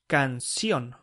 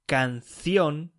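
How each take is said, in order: First: The c sounds like an s. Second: The c sounds like English th. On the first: "SEO speakers say canción" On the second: "instead of saying canción"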